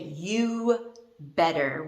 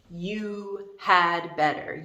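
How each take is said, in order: First: No 'had' or 'd' sound is heard at all. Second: The word 'had' is pronounced fully. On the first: The speaker calls it right. "we actually say you better. We don't even pronounce the D" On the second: The speaker calls it wrong. "The D represents the word had"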